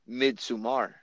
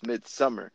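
First: The second syllable sounds like 'som'. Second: The second syllable sounds like 'sum'. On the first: The speaker calls it wrong. "Then why the hell is there a fucking O?" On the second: The speaker calls it right. "it's Midsummer"

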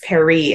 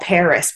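First: It is said with a French pronunciation. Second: It is said with an English pronunciation. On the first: This is the original name, and it sounds pretentious in English. "even though that's the correct way to say that word" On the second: This is the usual everyday name in English. "you don't call Paris"

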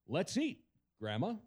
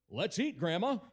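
First: There is a pause before Grandma. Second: There is no pause before Grandma.

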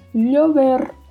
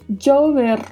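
First: The first consonant sounds like a palatal 'ly'. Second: The first consonant sounds like English 'j'. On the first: "som de LH" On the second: "som de DJ"

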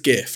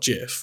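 First: It begins with a hard g sound. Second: It begins with a soft g sound. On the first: The speaker calls it right. "it is GIF, ... Because it's graphics interchange format" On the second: The speaker calls it wrong. "not GIF"

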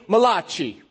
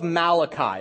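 First: It is said in a Jersey Italian accent. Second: It is said in a plain, standard accent.

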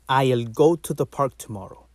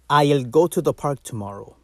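First: The first word is a full, clear 'I'll'. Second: The same.

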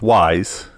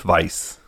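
First: The name is said the American way. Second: The name is said the British way. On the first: "There's the pronunciation, American, which is Weisz" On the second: "and then there's the British pronunciation, which is Weisz"

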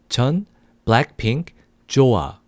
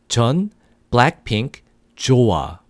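The two takes are said the same way.

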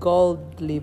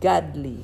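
First: The first part sounds like the word gold. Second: The first part sounds like the word God. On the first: People made of gold. The speaker calls it wrong. "bukan godly people" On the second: People close to God. The speaker calls it right. "tapi godly, God, dekat dengan Tuhan"

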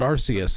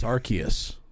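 First: The c is said as a soft s sound. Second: The c is said as a hard k sound. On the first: The speaker calls it wrong. "It's not Arceus like you've thought your entire life" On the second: The speaker calls it right. "It's a hard K"

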